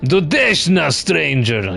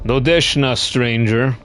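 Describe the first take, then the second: First: It is said with a put-on Russian accent. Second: It is said in a plain, ordinary accent.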